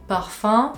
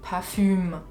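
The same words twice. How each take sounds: First: It is said with a French accent. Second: It is said with a German accent. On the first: "Le mot parfum" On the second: "ça devient parfum"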